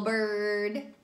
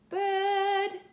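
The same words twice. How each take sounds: First: The vowel is strongly r-colored. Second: The vowel is an open 'eh' sound. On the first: The speaker calls it wrong. "Don't go bird" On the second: The speaker calls it right. "that's eh ... almost like you have a little bit of a British accent"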